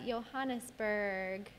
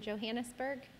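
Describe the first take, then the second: First: The name is said with Spanish-style sounds. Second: The name is said with English-style sounds.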